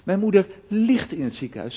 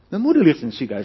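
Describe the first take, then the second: First: The stress falls on the word ligt. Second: The stress falls on the word moeder. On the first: She is bedridden and seriously ill. "Of als ik de klemtoon leg op ligt" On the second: It is the mother, not the father. "niet mijn vader"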